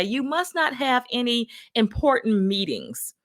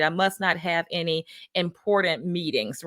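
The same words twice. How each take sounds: First: Raised-pitch mock manager's remark; higher, pointed retold jibe; imitating manager. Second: Said in the usual way. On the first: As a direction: lightly imitate a manager's backhanded comment. Manager's remark, then repeated as own.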